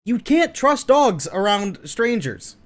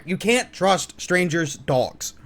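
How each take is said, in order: First: Said in the usual way. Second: Slow, careful stress on "strangers' dogs"; corrected phrase. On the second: Real, not acted. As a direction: put the weight on "strangers' dogs" as the fix. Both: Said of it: "Or, I'm sorry".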